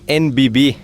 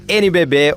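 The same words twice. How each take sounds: First: The letters are named in English. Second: The letters are named in Portuguese.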